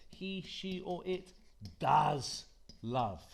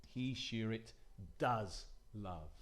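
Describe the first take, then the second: First: DOES punched loud before love; emphatic DOES. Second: Said in the usual way. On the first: Shown as a demonstration. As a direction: hit the word does hard. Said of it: "as an emphatic form". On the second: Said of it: "Notice how".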